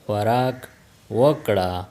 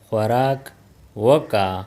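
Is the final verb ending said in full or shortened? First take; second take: full; shortened. First: The final ending is said in full as wakra. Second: The final ending is shortened to waka. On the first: This is the full careful form. "वकड़ा will become वका" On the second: This is how native speakers say it. "Native speakers speak"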